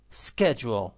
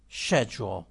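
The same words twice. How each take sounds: First: Schedule modelled with a hard SK; repeat-after-me Schedule, starting SKED; American pronunciation. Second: Repeat-after-me schedule, starting SHED; British pronunciation. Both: Shown as a demonstration.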